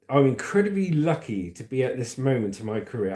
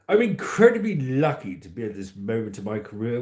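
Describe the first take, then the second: First: It is read in the speaker's ordinary voice. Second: It is read in an imitated posh royal voice.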